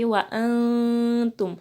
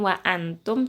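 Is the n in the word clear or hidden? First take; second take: hidden; clear. First: The n is faint and nasalized. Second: The n is pronounced clearly. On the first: The speaker calls it right. "nun sukunnya dibaca samar ... tapi wa antum" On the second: The speaker calls it wrong. "bukan wa antum"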